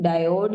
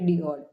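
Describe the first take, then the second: First: The first syllable sounds like 'die'. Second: The first syllable sounds like 'dee'. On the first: This is the usual way people say it. "Basically वैसे इसको डायोड ही pronounce करते हैं हम" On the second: This is a less common but accepted way. "आप इसको दोनों pronounce कर सकते हो"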